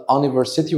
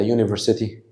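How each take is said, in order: First: "أونيفرسيتي" starting on an open "uh", with no Y glide; wrong initial U sound. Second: "يونيفرسيتي" starting with a Y glide, "you"; correct YOU sound. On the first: Teacher asking which way he said it, wrong open vowel start. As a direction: say "أونيفرسيتي" as un-iversity. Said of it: "قلت أونيفرسيتي ولا يونيفرسيتي". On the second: Teacher giving the standard word, Y glide at the start. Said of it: "ده النطق الصح بتاعها". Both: Shown as a demonstration.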